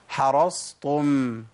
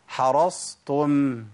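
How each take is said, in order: The two takes are said the same way.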